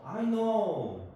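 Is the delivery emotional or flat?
emotional. It is said with lively, expressive feeling. The speaker calls it right. "뭐 이런 식으로 이제 감정을 식으로 하고 외우면 더 좋죠"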